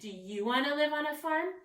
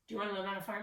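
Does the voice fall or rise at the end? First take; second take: rise; fall. First: The voice rises at the end. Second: The voice falls at the end. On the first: It is a question asking the reader something. The speaker calls it right. "I'm asking, / my voice goes up because I'm actually asking a question" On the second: It is a statement telling the reader something. The speaker calls it wrong. "I'm not telling them"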